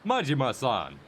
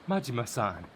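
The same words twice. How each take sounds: First: It is said in a put-on character voice. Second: It is said in a natural, ordinary voice. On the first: The speaker calls it right. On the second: The speaker calls it wrong.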